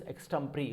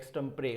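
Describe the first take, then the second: First: Extempore ending in "pree"; correct pronunciation. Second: Extempore ending in "pray"; accepted variant. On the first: Teacher summing up for students, extempore as "eks-tem-pree". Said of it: "एक्सटेम्परी बोलेंगे". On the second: Teacher adding the other option, extempore as "eks-tem-pray". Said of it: "इसको एक्सटेम्परे बोल देंगे". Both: Shown as a demonstration.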